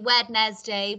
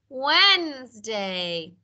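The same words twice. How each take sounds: First: Every letter is sounded, including the first d. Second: The first d is silent, like Wensday. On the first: The speaker calls it wrong. "I know you've sounded out properly Wednesday" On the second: The speaker calls it right. "but we say Wednesday"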